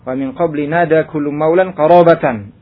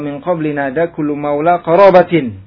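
First: Maula ends with an n sound; qarabatan ends -an. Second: Maula has no final n; qarabatin ends -in. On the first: The word after maula is the object of the verb. "riwayat yang pertama dengan tanwin pada maulan" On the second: The word after maula belongs to it as a possessive. "maula dengan tanpa tanwin, maka qarabatin dibaca kasrah"

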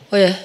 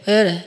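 No difference in how they are said.

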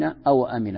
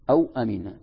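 First: The waw carries a short vowel, awa-amina. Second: The waw is silent with no vowel, aw-amina.

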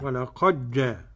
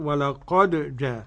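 First: The d is merged into the following j. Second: The d is pronounced clearly before the j. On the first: "أضغم الدال" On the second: "والباقون بالإظهار"

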